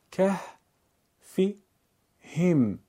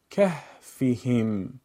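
First: که، فی، هم as three separate syllables; syllable-by-syllable reading. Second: کهفهم in one slow, connected flow; joined-up reading. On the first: Teacher breaks up a word for learners: که، فی، هم spaced out. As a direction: pause after each part: که، فی، هم. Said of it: "بخش خوانی کنید". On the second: Teacher puts the pieces together: کهفهم slowly as one word. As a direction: run کهفهم together with no breaks. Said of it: "پس از اون به صورت پیوسته قرائت کنید". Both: Shown as a demonstration.

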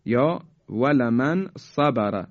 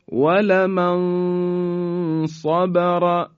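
First: Said in the usual way. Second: ولمن صبر recited very slowly, the ن hidden before a full, heavy ص; slow Quranic recitation drawing out صبر; heavy ikhfa recitation. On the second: Shown as a demonstration. (تلاوت آهسته ولمن صبر با اخفا) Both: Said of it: "به این مثال توجه بفرمایید".

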